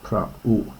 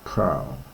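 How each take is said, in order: First: The two vowels are said as separate syllables. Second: The two vowels merge into one diphthong. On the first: The speaker calls it right. "you pronounce this as" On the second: The speaker calls it wrong. "not as"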